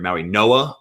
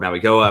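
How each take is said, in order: First: The consonant before the last vowel is an N. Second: The consonant before the last vowel is a G. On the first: "sometimes it's an N and you, the G silent" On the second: "I've heard Mauigoa"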